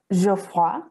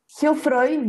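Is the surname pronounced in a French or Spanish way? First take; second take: French; Spanish. First: The name is pronounced with French sounds. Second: The name is pronounced with Spanish sounds. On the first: This is the original pronunciation of the name. "es un apellido francés, así que se pronuncia como Geoffroy" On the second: This is how she usually says her name. "yo lo digo así"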